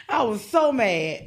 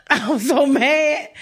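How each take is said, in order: First: Said in the usual way. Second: Laughing. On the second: Real, not acted.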